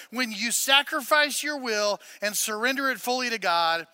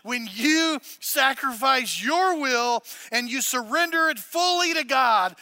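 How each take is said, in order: First: Said in the usual way. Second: Slow dictation. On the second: Shown as a demonstration. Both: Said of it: "Write it down under why".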